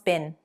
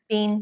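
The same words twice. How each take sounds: First: The word is said in its reduced, weak form. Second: The word is said in its full, strong form. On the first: "it's a weak form" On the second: "it will be stronger"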